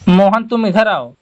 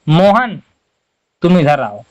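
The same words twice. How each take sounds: First: It is said in one run without pausing. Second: There is a short pause after the name. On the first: "ये बिल्कुल एक में हो गया" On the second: "हल्का सा हमें यहाँ पर भी रुकना है"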